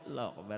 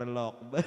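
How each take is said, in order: First: It is said weakly, without force. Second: It is said strongly, with force.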